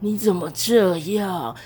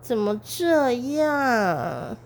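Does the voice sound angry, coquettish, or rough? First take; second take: rough; coquettish. First: It is said in a rough, smoky voice. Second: It is said slowly in a coquettish voice.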